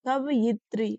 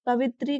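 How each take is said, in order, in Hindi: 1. इस शब्द में एक अतिरिक्त 'ya' अक्षर है। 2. इस शब्द में 'ya' अक्षर नहीं है।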